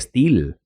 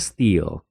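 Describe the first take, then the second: First: The vowel is split into two sounds. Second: The vowel is a single short sound. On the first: The speaker calls it wrong. "en lugar de steel" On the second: The speaker calls it right. "se pronuncia steel"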